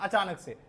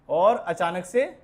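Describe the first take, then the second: First: Said in the usual way. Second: और अचानक से said slowly, stretched, rising at the end to hang in suspense; drawn-out suspense. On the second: Shown as a demonstration. Teacher to students, slowly building suspense before demotivate. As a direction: stretch और अचानक से slowly and leave से hanging on a rise. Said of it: "demotivate".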